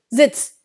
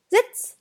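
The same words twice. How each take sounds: First: It is barked like a drill sergeant. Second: It is said in a gentle, friendly way.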